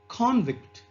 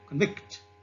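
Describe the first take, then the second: First: The stress is on the first syllable. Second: The stress is on the second syllable. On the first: It is a noun for a convicted person. "the noun convict" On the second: It is a verb meaning to find guilty. "into a verb like convict"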